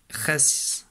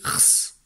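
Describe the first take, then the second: First: "res" with a clear E before the S; syllable with its vowel. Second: "rs" as bare consonants, rrr-sss, with no vowel; misspelling read literally. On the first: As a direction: sound out "res" as a full syllable, vowel included. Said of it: "il n'y a pas écrit". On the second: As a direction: sound out "rs" without the E. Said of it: "Il y a écrit rs". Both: Shown as a demonstration.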